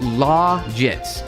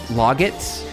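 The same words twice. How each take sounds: First: The first syllable does not sound like 'log'. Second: The first syllable sounds like the word 'log'. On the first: "It's Logit" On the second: "like the word log"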